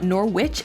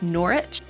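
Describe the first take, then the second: First: The W in the middle is pronounced. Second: The W in the middle is silent. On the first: The speaker calls it wrong. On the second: The speaker calls it right. "oftentimes that W is silent"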